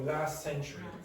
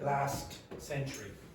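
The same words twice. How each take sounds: First: The T at the end of last is dropped. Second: The T at the end of last is pronounced. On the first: "an English speaker will remove the T" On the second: "instead of"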